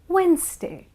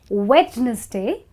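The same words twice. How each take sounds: First: The D sound is left out. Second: The D sound is pronounced. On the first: The speaker calls it right. "it's Wednesday. That's right" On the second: The speaker calls it wrong. "it's not Wednesday because the D is silent"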